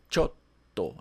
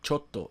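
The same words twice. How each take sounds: First: A brief pause comes before the held t. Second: The t is short with no pause. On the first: The speaker calls it right. "indicando que tem uma pausa no som entre o cho e o to" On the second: The speaker calls it wrong. "A pronúncia não é chotto"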